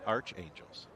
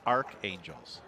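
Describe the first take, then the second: First: The first syllable ends in a ch sound. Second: The first syllable ends in a hard k sound. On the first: This is the version used so far on the broadcast. "I pronounce it as Arch, like the Saint Louis Arch" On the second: This is the version the audience insists is correct. "we're being yelled at in the live chat that it's Archangels"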